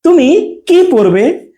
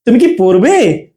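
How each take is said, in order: First: Slow, gap after "তুমি", long "কি পরবে"; space before কি. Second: "তুমি কি" as one unit, drawn tune on "পড়বে"; short "কি" joined to "তুমি"; attached কি. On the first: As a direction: pause and put weight on "কি". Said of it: "একটু স্পেস দিচ্ছি". ("তুমি"-র পরে থেমে "কি" টেনে) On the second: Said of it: "attach হয়ে আর কি আমরা উচ্চারণ করব". ("তুমি কি" একসাথে, "পড়বে"-তে প্রশ্নের সুর) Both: Shown as a demonstration.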